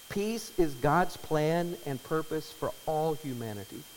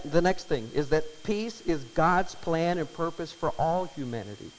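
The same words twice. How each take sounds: First: "Peace is God's plan and purpose for all humanity" slow, each word weighed; slow emphatic restatement. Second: Said in the usual way. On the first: Shown as a demonstration. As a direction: restate it slowly so it sinks in. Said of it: "repeated slowly". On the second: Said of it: "repeated phrase".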